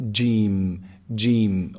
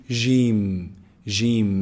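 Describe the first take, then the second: First: Jim with a firm j from mid-tongue; jim, jim, clear j; Arabic jim correct. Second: Jim softened like a French zh; Arabic jim done wrong. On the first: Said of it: "No, it's". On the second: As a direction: demonstrate the mistaken jim, slowly. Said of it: "Make sure you avoid saying". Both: Shown as a demonstration.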